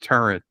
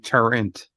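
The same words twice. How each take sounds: First: The word is said without an N sound. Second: The word is said with an extra N sound. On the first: The speaker calls it right. "it's pronounced turret" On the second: The speaker calls it wrong. "I say turret with an N"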